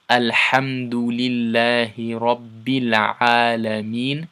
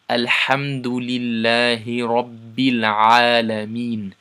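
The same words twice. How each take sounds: No difference in how they are said.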